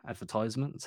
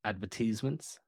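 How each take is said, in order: First: Advertisements with a "tize" in it, "ad-ver-TIZE-ments"; advertisements, ties variant. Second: Advertisements with a "teez" in it, "ad-ver-TEEZ-ments"; advertisements, tease variant. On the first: Host offers listeners both ways, "advertisements" with "tize". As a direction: say advertisements with an eye sound before -ments. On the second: Host offers listeners both ways, "advertisements" with long "teez". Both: Shown as a demonstration. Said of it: "how you like to say it".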